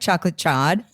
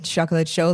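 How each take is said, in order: First: Chaud is said with an anglicized pronunciation. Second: Chaud is said with a French pronunciation. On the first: The speaker calls it wrong. "I wouldn't be like" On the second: The speaker calls it right. "feel free to pronounce it correctly"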